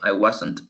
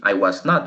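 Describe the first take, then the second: First: The negative is contracted into two words. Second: The negative is said as three full words. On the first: "puedo decir también" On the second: "Instead of say I was not"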